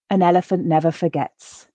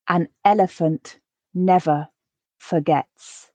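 First: The sentence is said at a quicker, natural pace. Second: The sentence is said slowly and carefully. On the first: "once at a more natural pace" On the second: "I'll read each sentence once, quite slowly"

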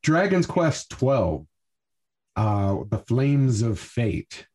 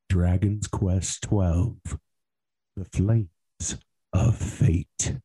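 First: It is said plainly, in a casual tone. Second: It is said dramatically, in a darker tone.

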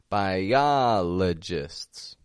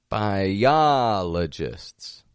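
No difference in how they are said.

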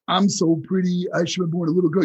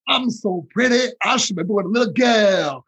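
First: It is spoken without a Southern accent. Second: It is spoken in a Southern accent. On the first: The speaker calls it wrong. "a boxer from New York" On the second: The speaker calls it right. "you got to do that with a Southern accent"

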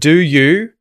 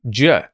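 First: Both words are said fully and separately. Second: The words merge into one syllable with schwa. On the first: "instead of do you" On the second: "that oo sound ... is actually going to become a schwa as well"

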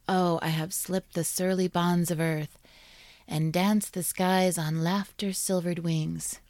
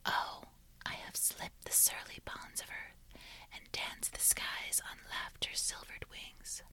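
First: It is said in a normal voice. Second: It is said in a whisper.

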